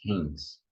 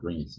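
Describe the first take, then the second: First: "rins" starting with an h sound; correct pronunciation. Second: "rins" with an English-style r at the start; wrong pronunciation. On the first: Teacher correcting the kidney word, correct pronunciation. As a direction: say "rins" as "hins", nasal vowel. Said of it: "it's rins". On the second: Teacher warning students about rins, wrong pronunciation. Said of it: "it's not rins". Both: Shown as a demonstration.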